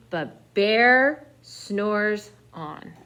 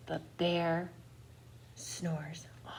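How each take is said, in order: First: Slow emphatic refrain, a bit louder. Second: Soft breathy hush, barely voiced; whispered bedtime refrain. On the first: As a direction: draw it out very slowly. Repeated sleepy refrain. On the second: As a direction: whisper it so the bear stays asleep. Sleeping bear refrain in story. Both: A narrator's reading.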